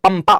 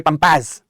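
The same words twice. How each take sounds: First: पंपा with the final S dropped; wrong pronunciation. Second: पंपास with a clear final S; correct pronunciation. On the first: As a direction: say पंपा ending on an open long "aa". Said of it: "गलत pronunciation है". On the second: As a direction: say पंपास, closing the long "aa" with an S. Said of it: "आप हमेशा बोलेंगे". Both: Shown as a demonstration.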